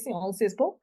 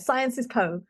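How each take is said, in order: First: The name is said with a French accent. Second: The name is said with an English accent. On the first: "It sounds very French" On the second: "Say it the British way"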